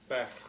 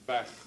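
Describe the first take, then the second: First: The vowel is said short and quick. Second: The same.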